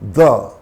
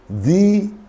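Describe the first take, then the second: First: It is said 'thuh', with a short weak vowel. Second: It is said 'thee', with a long ee vowel. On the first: The next word starts with a consonant sound. "But loss, it begins with a consonant sound, so it will be the" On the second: The next word starts with a vowel sound. "Here agitation begins with a vowel sound, so it will be the"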